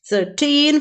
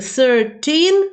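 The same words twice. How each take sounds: First: The stress is on the second syllable. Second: The stress is on the first syllable. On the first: The speaker calls it right. "with the stress upon teen" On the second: The speaker calls it wrong. "When we say with the same stress"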